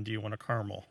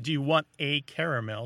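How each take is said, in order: First: "caramel" as CAR-mul in the question; two-syllable pronunciation. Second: "caramel" as CARE-uh-mel in the question; three-syllable pronunciation. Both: Shown as a demonstration. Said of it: "Sounds better than".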